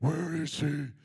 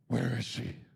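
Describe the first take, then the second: First: It is said in a high, childlike put-on voice. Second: It is said in a deep, gravelly put-on voice. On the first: A young child is imitating Batman. "he'll do that back to me" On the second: The speaker is playing Batman. "I get my Batman voice going"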